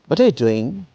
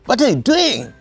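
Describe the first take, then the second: First: It is asked with plain, genuine curiosity. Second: It is asked angrily, like 'what the hell'.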